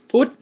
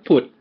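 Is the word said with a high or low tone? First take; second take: high; low. First: The word is said on a high tone. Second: The word is said on a low tone. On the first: It means the Buddha or Wednesday. "high tone" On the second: It means to spring up or arise. "the low tone"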